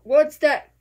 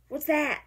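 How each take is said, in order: First: Sudden loud what's that; loud startled what's that; startled question. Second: Said in the usual way. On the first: Real, not acted. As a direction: blurt it out in surprise. Startled by something on screen.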